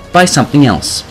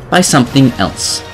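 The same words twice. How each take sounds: The two takes are said the same way.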